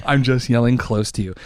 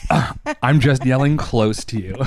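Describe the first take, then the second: First: Said in the usual way. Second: Laughing through the words. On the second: Real, not acted. Joking to partner that he's only yelling close, laughing. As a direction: let a laugh break into the line. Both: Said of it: "I know right now you're feeling like I'm yelling".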